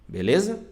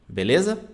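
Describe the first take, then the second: No difference in how they are said.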